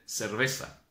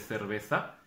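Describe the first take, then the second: First: A Buenos Aires accent, z said as s. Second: A Madrid Spanish accent, z said as th.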